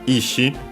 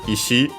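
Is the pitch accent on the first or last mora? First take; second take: first; last. First: The pitch accent falls on the first mora. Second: The pitch accent falls on the last mora. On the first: It means will or intention. "accented on the first mora" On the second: It means stone or rock. "accent on the last syllable"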